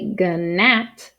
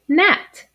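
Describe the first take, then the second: First: A hard G sound is said before the N. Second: The word starts straight with the N sound. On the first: The speaker calls it wrong. "we don't say gnat" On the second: The speaker calls it right. "we just say gnat"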